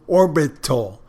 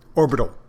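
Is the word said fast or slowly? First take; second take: slowly; fast. First: The word is said slowly. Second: The word is said quickly.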